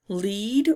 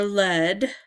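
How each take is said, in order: First: "lead" rhyming with need, LEED; long-e pronunciation. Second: "lead" rhyming with bed, LED; short-e pronunciation. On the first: Player reads out both readings of the word, "lead" as LEED. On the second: Player offers the other reading of the word, "lead" as LED. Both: Shown as a demonstration. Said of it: "lead or lead".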